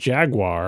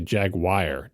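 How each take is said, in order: First: The last syllable sounds like 'wahr'. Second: The last syllable sounds like 'wire'. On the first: "Instead of saying the word jaguar" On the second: "like it says W I R E at the end of it"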